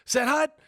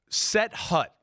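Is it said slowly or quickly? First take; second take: quickly; slowly. First: It is said quickly, almost one word. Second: It is said slowly, words apart.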